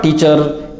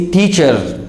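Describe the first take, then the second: First: TEACHER with a hard, unaspirated T; mispronunciation. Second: TEACHER with a puff of air on T, "t-hee-cher"; correct pronunciation. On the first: Teacher warns against teacher mispronounced with unaspirated T. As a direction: say TEACHER without a puff of air on T. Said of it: "but it is not teacher". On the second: Teacher corrects learners, teacher pronounced with aspirated T. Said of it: "it is teacher". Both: Shown as a demonstration.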